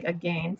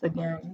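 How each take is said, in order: First: "again" said a-gain, rhyming with vain; old rhyme pronunciation. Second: Said in the usual way. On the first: Shown as a demonstration. Teacher showing how the poem rhymes "again". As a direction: stretch "again" so it rhymes with rain. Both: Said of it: "but they say it like again".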